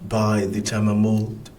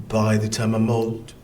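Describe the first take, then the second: Both takes have the same delivery.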